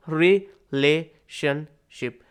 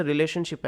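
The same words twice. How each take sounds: First: "रिलेशनशिप" slowly in four pieces, "रि, ले, शन, शिप"; split into syllables. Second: Said in the usual way. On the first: Shown as a demonstration. Teacher showing a four-way division, syllable by syllable. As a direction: leave a gap between the syllables of "रिलेशनशिप". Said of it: "चार में हमने इसको divide". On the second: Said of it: "इसको तो आप ही divide".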